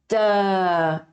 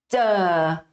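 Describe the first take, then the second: First: The consonant starts with a brief stop closure. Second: The same.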